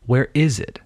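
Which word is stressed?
is. The stress falls on the word is. The speaker calls it right. "The stress is on the is"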